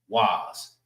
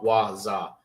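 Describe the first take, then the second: First: The sounds are blended into one syllable. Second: Two separate syllables are said with a break. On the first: "You bridge these two together, it makes its own independent sound" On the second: "That's how you say it without bridging anything"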